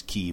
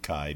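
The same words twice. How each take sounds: First: "key" said with a long ee; the official "key", with an ee vowel; official pronunciation. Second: "Kai" said to rhyme with eye; "Kai", a k then the sound of eye; speaker's usual pronunciation. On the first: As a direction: say "key" to rhyme with see. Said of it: "I think the official pronunciation is key". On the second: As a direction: say "Kai" with a long i vowel. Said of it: "but I always pronounce it Kai". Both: Shown as a demonstration.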